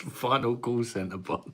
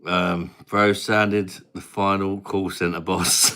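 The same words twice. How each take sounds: First: "Final call centre boss" said slower, higher, in a light Indian accent; slow mock call-centre boss voice on "Final call centre boss". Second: Said in the usual way. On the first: Shown as a demonstration. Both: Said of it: "I sounded like this then".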